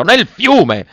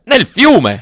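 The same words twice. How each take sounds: First: Much higher and loud, repeated in horror; echoed outraged yell. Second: Much higher, loud outraged yell; horrified shout. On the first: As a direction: fling the words back at her. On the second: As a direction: scream it as if the gold were drowning. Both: A narrator's reading. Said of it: "urlò l'avaro".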